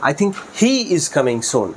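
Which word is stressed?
he. The word he gets the stress. This particular person, among many, is coming. "হি এর উপর stress দেই"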